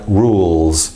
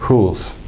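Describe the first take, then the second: First: The R is clear and firm. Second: The R is soft and breathy. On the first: "a very um, clear R, R, R sound" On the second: "may have a softer R sound, so it could be rules"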